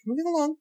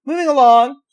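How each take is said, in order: First: Quick falling brush-off; dismissive moving on. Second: Sing-song rise, moving along; breezy moving on. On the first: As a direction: drop it with a falling tone. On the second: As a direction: brush it off brightly. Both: Real, not acted.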